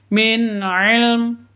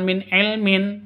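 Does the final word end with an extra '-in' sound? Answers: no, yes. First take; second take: no; yes. First: The last word stops on a final m. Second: The last word ends with an added -in. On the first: The reader stops at this word. The speaker calls it right. "karena waqaf maka bacanya ... tapi min ilm" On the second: The reading continues without stopping. The speaker calls it wrong. "bukan min ilmin"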